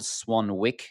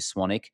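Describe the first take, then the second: First: The second W is sounded out. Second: The second W is left silent. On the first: "so it's spelled Swanwick" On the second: "pronounced uh, with a silent W"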